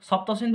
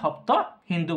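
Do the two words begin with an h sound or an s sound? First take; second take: s sound; h sound. First: Both words begin with an s sound. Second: Both words begin with an h sound.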